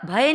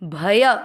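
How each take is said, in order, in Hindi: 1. अंतिम व्यंजन बिना किसी बाद के स्वर के समाप्त होता है। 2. दोनों अक्षर पूरे बोले जाते हैं, हर एक में स्वर के साथ। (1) "भय नहीं" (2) "दोनों अक्षर पूरे, दोनों में अ का उच्चारण मिक्स किया"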